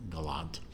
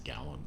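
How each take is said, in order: First: "Galant" as guh-LAHNT, stress at the end; alternative pronunciation. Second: "Gallant" as GAL-unt, weak second syllable; anglicised pronunciation. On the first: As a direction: land on the open second syllable of "Galant", guh-LAHNT. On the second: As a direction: put the stress of "Gallant" up front, GAL-unt. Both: Shown as a demonstration. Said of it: "It's obviously pronounced Gallant".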